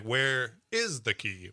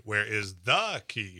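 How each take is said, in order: First: Slow, with "is" punched and drawn out; stress on IS. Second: Slow, with "the" punched and drawn out; stress on THE. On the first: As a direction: imitate the kid, leaning hard on "is". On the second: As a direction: imitate the kid, leaning hard on "the". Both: Retold or imitated. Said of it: "he would accent different".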